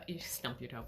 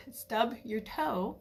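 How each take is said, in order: First: Said in the usual way. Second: Slow, laughing whisper on "stub your toe"; laughing correction. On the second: Real, not acted. Correcting her own slip to listeners, laughing whisper.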